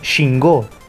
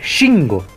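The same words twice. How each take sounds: First: The stress is on the last syllable. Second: The stress is on the first syllable. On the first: The speaker calls it wrong. "con acento en la última O" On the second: The speaker calls it right. "así como lo estoy diciendo yo"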